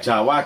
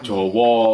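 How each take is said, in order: First: The vowels are pronounced as open a sounds. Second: The vowels are pronounced as rounded o sounds. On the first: This follows the written spelling. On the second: This is how Javanese speakers say it.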